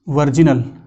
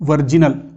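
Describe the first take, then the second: No difference in how they are said.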